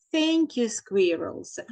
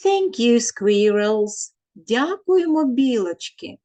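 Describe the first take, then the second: First: Said in the usual way. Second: Put-on children thanking the squirrels; voicing the children. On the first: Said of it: "The children are saying". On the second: Children's chorus, teacher voices it.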